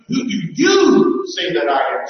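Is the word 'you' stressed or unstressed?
stressed. The word you is strongly stressed. You personally tell me what you think. The speaker calls it right. "It's more like"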